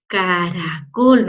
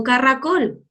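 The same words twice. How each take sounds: First: "caracol" with a light single-tap R, very slow and low; soft R. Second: "caracol" mispronounced with a rolled RR, as carracol; wrong strong R. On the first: Teacher showing pupils the soft middle R, gentle slow tap. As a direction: stretch out "caracol", tapping the R gently. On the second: Teacher showing how not to say it, trilled R. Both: Shown as a demonstration. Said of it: "no le digo caracol".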